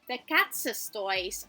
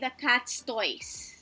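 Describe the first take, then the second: First: The s in 'cats' is a lengthened double sound. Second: The s in 'cats' is a single short sound. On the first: The toys belong to more than one cat. The speaker calls it right. "we also have to pronounce it as if it's double S" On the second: It does not sound possessive. The speaker calls it wrong. "We cannot say the cat's toys"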